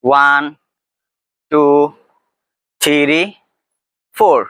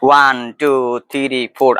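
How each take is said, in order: First: The count is said at a slower pace. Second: The count is said at a quicker pace.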